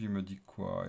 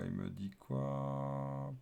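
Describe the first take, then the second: First: Said in the usual way. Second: Drawn out and dropped softly, wondering; slow puzzled murmur. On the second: Real, not acted. Developer squinting at his app's error, slow puzzled murmur. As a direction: stretch each word as if squinting at the screen.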